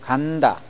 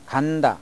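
First: The first syllable is drawn out longer. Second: The first syllable is said at normal length.

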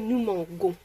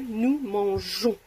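First: The middle consonant is a hard g, as in go. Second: The middle consonant is a soft zh, as in measure. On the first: The speaker calls it wrong. "ça a le son G. Donc, ça fait nous mangons. Mais on ne peut pas dire nous mangons" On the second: The speaker calls it right. "Il faut dire nous mangeons"

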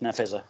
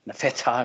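First: The middle consonant is a 'z' sound. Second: The middle consonant is a 'th' sound. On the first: This is the easier form chosen for the name. The speaker calls it right. "So we called it Nafeza" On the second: This is the original Arabic pronunciation. The speaker calls it wrong. "difficult for somebody to read it with TH"

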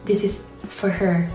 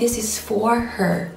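First: The word 'for' is reduced to a weak 'fer'. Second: The word 'for' is said fully, unreduced. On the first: The speaker calls it right. "มันเป็น" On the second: The speaker calls it wrong. "มันไม่ใช่"

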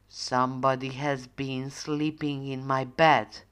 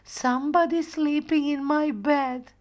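First: The voice is deep and growly. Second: The voice is high and squeaky. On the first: Father Bear is speaking. "in his great big growly voice" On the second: Little Bear is speaking. "in his small baby voice"

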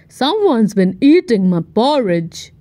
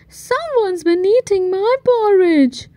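First: It is growled in Daddy Bear's voice. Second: It is rumbled in Mommy Bear's voice.

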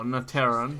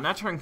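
First: The name begins like the name 'Natera'. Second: The name begins like the word 'nature'. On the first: The speaker calls it right. "I'm sure it is Naterran. Because it's Natera" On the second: The speaker calls it wrong. "Naturan sounds more natural to me"

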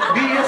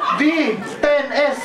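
First: The name is said as one short word. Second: The name is said as a letter, a number and a letter. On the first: This is the actual name of the car. The speaker calls it right. "Vios pala" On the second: Someone else misread the car name. The speaker calls it wrong. "basa niya, V10S"

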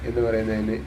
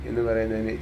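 Both takes have the same delivery.

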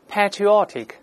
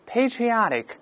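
First: It is said in a British accent. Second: It is said in an American accent. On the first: The speaker calls it wrong. "我们现在英式发音读一遍patriotic" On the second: The speaker calls it right. "我们再大声按美音来呗"

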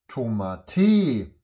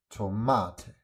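First: The middle syllable is not stressed. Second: The middle syllable carries the stress. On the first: The speaker calls it wrong. "Nein, das kann auch nicht stimmen" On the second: The speaker calls it right. "Es muss Tomate heißen"

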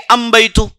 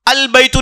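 First: The first word ends in an m sound. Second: The first word ends in an l sound. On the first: "अल के जगह अम" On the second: "अल बैतु नहीं कहेंगे"

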